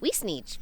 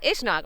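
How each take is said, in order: First: The name is pronounced as it is spelled. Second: The name is pronounced the local way. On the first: The speaker calls it wrong. "It's spelled Weesneach" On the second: The speaker calls it right. "They're like, yeah, Ishnak"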